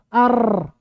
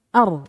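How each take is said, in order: First: The r vibrates strongly with many taps. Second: The r vibrates lightly with few taps. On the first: The speaker calls it wrong. "Langit-langit tengah" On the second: The speaker calls it right. "Lebih sedikit getarannya kalau dia di ujung"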